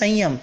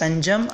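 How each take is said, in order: First: The middle consonant is a y sound. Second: The middle consonant is a j sound. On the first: It turns the word into Gujarati. The speaker calls it wrong. "હું જ્યારે સંયમ બોલીશ તો એ ગુજરાતી થઈ જશે" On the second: It keeps the original language of the sutra. The speaker calls it right. "સૂત્રની અંદર સુખ સંજમ જાત્રા છે તો આપણા મોઢેથી સુખ સંજમ જાત્રા જ નીકળવું જોઈએ"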